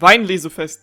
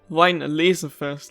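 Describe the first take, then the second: First: The stress falls on "Wein". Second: The stress falls on "laser". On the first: The speaker calls it right. "but it's actually Wein" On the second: The speaker calls it wrong. "the laser is just the the most emphasized word"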